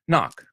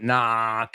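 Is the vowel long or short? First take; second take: short; long. First: The vowel is clipped short. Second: The vowel is drawn out long. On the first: The speaker calls it right. "And it's short" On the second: The speaker calls it wrong. "It's not"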